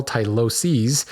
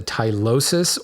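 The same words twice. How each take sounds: First: "tyloses" ending in a long "seez"; plural pronunciation. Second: "tylosis" ending in a short "sis"; singular pronunciation. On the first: Host gives the plural after the singular, carefully pronounced. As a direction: say "tyloses" slowly as tie-LO-seez. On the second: Host contrasts singular with plural for listeners, carefully pronounced. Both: Shown as a demonstration. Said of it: "or plural tyloses".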